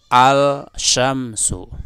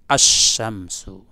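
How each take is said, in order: First: The L sound is pronounced clearly before sh. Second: The L sound merges into a doubled sh. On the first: The speaker calls it wrong. "tidak benar apabila engkau mengatakan gini" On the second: The speaker calls it right. "cara bacanya diidghamkan"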